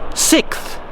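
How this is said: The word is said like 'sickth', with a 'k-th' ending. This is how people in one particular city say it. The speaker calls it wrong. "in Adelaide they would say sixth, as in S I C K T H"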